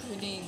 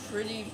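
No difference in how they are said.

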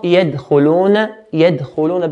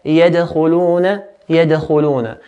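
First: يَدْخُلُونَ with a dead, unreleased d; no qalqala, wrongly. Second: يَدْخُلُونَ with a bouncing, echoed d; qalqala. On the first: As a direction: stop the d of يَدْخُلُونَ without any bounce. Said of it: "So it's not". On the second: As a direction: bounce the d off before khu in يَدْخُلُونَ. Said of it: "we make a bouncing echo sound". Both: Shown as a demonstration.

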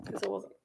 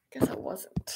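First: Said in the usual way. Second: Whispered repeat. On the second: Real, not acted. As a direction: Guess I wasn't whispered again, soft and rueful. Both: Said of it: "I thought I was so organized".

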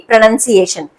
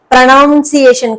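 First: ప్రొనౌన్సియేషన్ with a short NUN in the second syllable; correct pronunciation. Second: ప్రొనౌన్సియేషన్ with a drawn-out NOUN in the second syllable; wrong pronunciation. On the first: Teacher correcting the word for learners, ప్రొనౌన్సియేషన్ said as pro-nun-ciation. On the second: Teacher showing learners the mistake to avoid, mispronounced ప్రొనౌన్సియేషన్ as pro-noun-ciation. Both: Shown as a demonstration. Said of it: "కాదండి".

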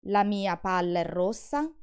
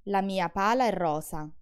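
First: Palla and rossa with the l and s held long; doubled version; double consonants held. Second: Pala and rosa said with a short single l and s; no hold in pala and rosa; single-consonant version. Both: Shown as a demonstration. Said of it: "Look at the difference".

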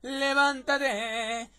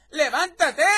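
First: Very slow, stretched wake-up call; drawn-out wake-up call. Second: Loud, high shouted command; wake-up shout. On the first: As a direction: drag out every syllable to wake them. Same wake-up line, stretched out. (llamada alargada para despertar) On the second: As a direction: shout the sleeper awake. Voices character waking a sleeper. (grito para despertar a alguien) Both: Acted.

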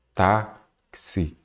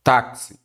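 First: "táxi" broken in two with a gap between syllables. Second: Said in the usual way. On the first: Shown as a demonstration. Teacher separating a word for students, "táxi" syllable by syllable. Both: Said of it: "vou separar aqui".

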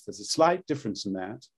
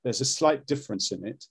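First: Put-on old posh stage British; classic RP accent. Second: The newer, lighter British sound; modern Standard British. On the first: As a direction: demo "slight difference" in plummy classic RP. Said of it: "the classic is a little bit more like this". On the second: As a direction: demo "slight difference" in modern RP. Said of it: "modern Standard Brit's a little bit more like this". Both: Shown as a demonstration.

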